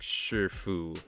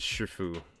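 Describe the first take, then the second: First: A faint r-like sound comes before the f. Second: It is said fast without the r-like sound. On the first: The speaker calls it right. "adding a half of an R in between the I and the F" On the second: The speaker calls it wrong. "saying it fast is it's tough... it doesn't sound exactly right"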